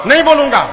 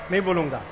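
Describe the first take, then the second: First: Higher, louder defiant refusal of "नहीं बोलूंगा"; defiant shout. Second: Softer, sulky muttered refusal of "नहीं बोलूंगा"; sullen refusal. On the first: Son shouts his refusal. (ऊँची आवाज़ में अकड़कर "नहीं बोलूंगा") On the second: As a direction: say "नहीं बोलूंगा" low and stubborn. Stubborn son refuses guru. (धीमे, ज़िद्दी स्वर में "नहीं बोलूंगा") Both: Acted.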